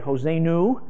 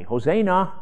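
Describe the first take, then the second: First: The last syllable ends in a 'u' vowel. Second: The last syllable ends in an 'a' vowel. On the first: The speaker calls it wrong. "I keep wanting to say Hosanu" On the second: The speaker calls it right. "the na"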